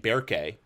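The name is said with a light English accent. It sounds natural without trying too hard. "even though that's not quite right"

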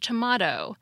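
It is said with a British pronunciation. "for British English tomato"

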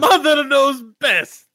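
It is said in an Italian-sounding accent.

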